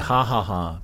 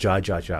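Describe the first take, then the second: First: Each syllable begins with an H sound. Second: Each syllable begins with a J sound. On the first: This is the proper Spanish pronunciation. "it should be ha ha ha" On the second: This is the English-influenced pronunciation. "we call it ja ja ja because of English"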